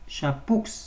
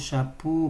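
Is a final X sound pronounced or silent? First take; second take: pronounced; silent. First: A final X sound is pronounced. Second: No final X sound is pronounced. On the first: The speaker calls it wrong. "Non, on ne prononce pas le X à la fin" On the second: The speaker calls it right. "On dit"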